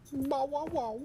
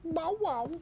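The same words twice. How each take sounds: First: High yappy barks; dog barking. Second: High yappy bark; dog barking. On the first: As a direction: yap like a small dog. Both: Pretend. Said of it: "barking imitation".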